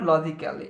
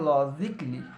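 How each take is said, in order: First: An extra vowel is heard before the final 'ly'. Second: No vowel is heard before the final 'ly'. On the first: The speaker calls it wrong. "It's not লজিক্যালি" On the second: The speaker calls it right. "এটাকে বলবো আমরা লজিকলি"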